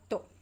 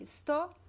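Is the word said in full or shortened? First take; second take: shortened; full. First: The first syllable is dropped entirely. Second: The word is pronounced with both syllables. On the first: "drop the first two letters, the es" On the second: "you could say estou or tô"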